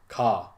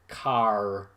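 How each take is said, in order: First: It is said in an English accent. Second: It is said in a toned-down, Irish-leaning accent.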